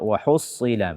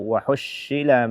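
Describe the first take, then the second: First: The consonant is a heavy, emphatic s. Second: The consonant is an sh sound. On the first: The speaker calls it right. "Tapi bacalah dengan sad" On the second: The speaker calls it wrong. "atau shin"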